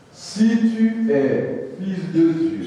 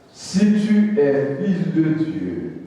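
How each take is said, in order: No difference in how they are said.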